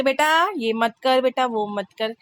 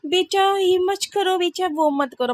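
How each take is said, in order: First: Quick, blunt "बेटा ये मत कर" with no sugar; just tell the kid off flatly, no patience; curt mom. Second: Put-on high, slow and sugary, coaxing the child gently; the patient mother she is not, drawn out sweetly; patient sweet mom. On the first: Retold or imitated. Mother showing her own impatient way of telling the child off, curt. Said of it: "हम तो कहते". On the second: Mother imitating the patient way of scolding a child, sweet and slow. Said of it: "हमारे में patience वाले नहीं है भैया".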